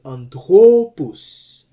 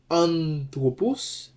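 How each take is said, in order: First: Anthropos with a loud, drawn-out THRO; stress on second syllable. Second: Anthropos stressed on AN, said slowly; stress on first syllable. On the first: Teacher shows the accent moved to the penult, anthropos stressed on THRO. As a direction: punch and stretch the THRO in anthropos. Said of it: "okay, to the penult". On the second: Teacher gives the normal form for contrast, anthropos stressed on AN. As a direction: lean on the AN in anthropos. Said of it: "the accented syllable is an". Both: Shown as a demonstration.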